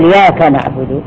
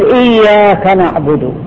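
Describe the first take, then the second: First: The doubled consonant is dropped and shortened. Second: The doubled consonant is held long. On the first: The speaker calls it wrong. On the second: The speaker calls it right.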